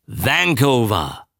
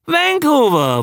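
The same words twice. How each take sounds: First: Slow, drawn-out recall at normal pitch; dawning recollection. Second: High, excited exclamation; triumphant recognition. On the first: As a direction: savour the word as it comes back. Just remembered the ship name. (gedehnt, sich langsam erinnernd) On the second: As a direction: call it out as it clicks, pitch leaping. Exclaims the remembered name. (begeistert hoch ausgerufen) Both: Acted.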